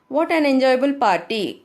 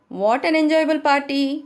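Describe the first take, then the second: First: It is said as an exclamation, falling. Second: It is said as a question, rising.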